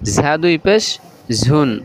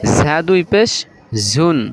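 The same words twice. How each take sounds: No difference in how they are said.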